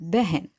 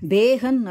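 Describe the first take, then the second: First: The first vowel is a short 'e' sound. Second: The first vowel is a long 'ay' sound. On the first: The speaker calls it right. "பெஹன் அப்படி சொல்லணும்" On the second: The speaker calls it wrong. "பேகன் அப்படின்னு சொல்லிடக்கூடாது"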